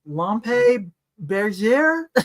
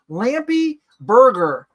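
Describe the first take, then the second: First: The name is tried in a French-style pronunciation. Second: The name is said in an American pronunciation. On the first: "I am not going to say this right" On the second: "Can I just say it like an American girl?"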